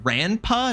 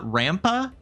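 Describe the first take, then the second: First: An n sound comes before the pa. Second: An m sound comes before the pa. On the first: The speaker calls it right. "Is it Dangan Ranpa, not Rampa? R A N P A" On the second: The speaker calls it wrong. "not Rampa"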